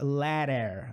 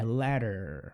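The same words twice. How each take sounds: First: The second vowel is a full, clear vowel. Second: The second vowel is a weak, reduced schwa. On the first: The speaker calls it wrong. "A gente não fala ladder" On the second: The speaker calls it right. "é como se praticamente a gente não falasse"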